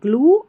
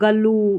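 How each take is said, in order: First: The g and l join with no vowel. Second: A full vowel separates the g and l. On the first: The speaker calls it right. "जीएल को ग्ल" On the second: The speaker calls it wrong. "गलत हो जाएगा"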